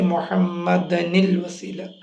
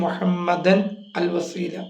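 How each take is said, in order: First: Muhammadan runs into wasila with -anil. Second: Muhammadan and al wasila are said separately.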